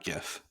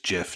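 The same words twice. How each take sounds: First: It starts with a hard G sound. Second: It starts with a soft J sound. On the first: "not GIF" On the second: "Andy maintains that it's GIF"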